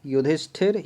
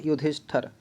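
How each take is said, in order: First: युधिष्ठिर said with -ṭhir, rising; correct last vowel. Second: युधिष्ठर said with -ṭhar, softer; wrong last vowel. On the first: Teacher comparing spellings, युधिष्ठिर with a short i. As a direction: lift the closing ṭhir of युधिष्ठिर. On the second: Teacher comparing spellings, युधिष्ठर with an a. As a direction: let युधिष्ठर close softly on ṭhar. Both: Shown as a demonstration. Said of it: "ये तो गलत लग रहा है".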